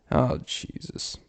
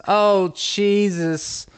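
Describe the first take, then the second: First: Soft, slow, breathy groan; muted groan. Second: High, very slow mock wail; drawn-out mock wail. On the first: Acted. Comic groans at his own cheese joke, muted. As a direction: sigh it out slowly under your breath. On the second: Comic milks his own cheese joke, high and drawn out. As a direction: stretch each word out, pitched up. Pun groan escalates on third take.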